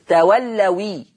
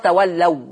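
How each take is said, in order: First: The word ends in a 'wi' syllable. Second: The word ends in a plain long vowel. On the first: The next word's vowel moves onto the final w. "هتبقى تولوي" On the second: The final w stays without a vowel. "ما هي أصلها تولوا، واو ساكنة"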